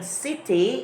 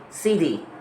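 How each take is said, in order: First: The middle consonant is a clear t sound. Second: The middle consonant sounds like a soft d. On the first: "instead of saying city" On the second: "T sounds as a D"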